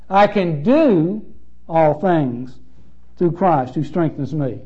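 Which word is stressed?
do. The stress falls on the word do.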